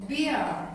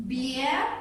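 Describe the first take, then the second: First: "beer" said with a falling pitch at the end; final falling "beer"; falling tune. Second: "beer" said with a rising pitch at the end; listing tone rising on "beer"; rising tune. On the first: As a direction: close the list with "beer" dropping down. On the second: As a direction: ask "beer" like a question, voice going up. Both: Shown as a demonstration. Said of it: "for example".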